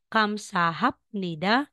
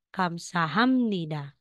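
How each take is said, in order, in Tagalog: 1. Ang tunog na p ay nasa unahan ng n. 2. Ang tunog na m ay nasa unahan ng n. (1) "instead na sasabihin mong kamsahapnida" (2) "magiging kamsahamnida"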